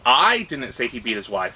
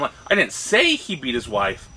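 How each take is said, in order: First: The stress falls on the word "I". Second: The stress falls on the word "wife". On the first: "if the emphasis is, is" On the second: "And so all the way down"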